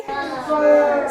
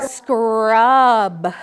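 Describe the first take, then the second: First: Said in the usual way. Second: Louder, lower blended word. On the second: Shown as a demonstration. Teacher models blending "Scrub" for the class. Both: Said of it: "blend it together to make the word".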